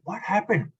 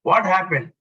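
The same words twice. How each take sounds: First: The tone sounds warm and caring. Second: The tone sounds stern and controlling. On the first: The asker is concerned about the person. "Nurturing parent" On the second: The asker is criticizing the person. "Authoritative, controlling"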